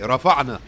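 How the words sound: It is said in Egyptian colloquial style. The speaker calls it wrong. "If you're Egyptian, you say"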